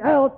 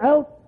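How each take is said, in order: First: It is said in the speaker's own accent. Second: It is said the Virginia way.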